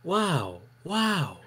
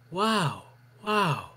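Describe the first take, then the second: No difference in how they are said.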